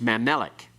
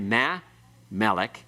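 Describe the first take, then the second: First: The two parts run together without a pause. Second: The two parts are split by a pause. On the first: The speaker calls it right. "It's pronounced all together quickly" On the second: The speaker calls it wrong. "You don't say meh, melech"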